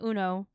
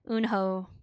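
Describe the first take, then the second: First: The name is said without an h sound. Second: The name is said with an h sound. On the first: This is the Japanese rendering of the name. "it's Uno when it's um translated into Japanese characters" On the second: This is the rendering used in the West. "in the West we only stress out the H"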